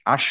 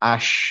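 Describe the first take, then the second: First: The consonant is a hushing 'sh'. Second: The consonant is a hushing 'sh'.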